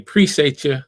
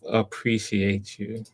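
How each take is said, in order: First: The first syllable of appreciate is dropped. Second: The first syllable of appreciate is pronounced.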